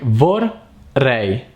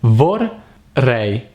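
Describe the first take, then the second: First: The word is broken into two separate parts. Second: The same.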